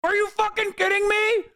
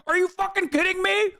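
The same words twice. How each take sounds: First: High, shouted disbelief; outraged shout. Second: High, incredulous outrage; outraged. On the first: Streamer yelling at the video in disbelief. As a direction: yell it at the screen. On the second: Streamer reacting to the video, outraged disbelief. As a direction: disbelief boiling over. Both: Real, not acted.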